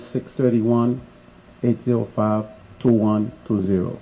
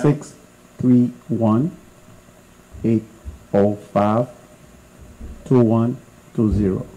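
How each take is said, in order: First: The number is said at normal speed. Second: The number is said more slowly.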